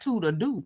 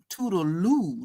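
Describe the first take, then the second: First: The second part begins with a D sound. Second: The second part begins with an L sound. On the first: The speaker calls it wrong. "not toodle doo" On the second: The speaker calls it right. "it's toodle ooh, toodle loo"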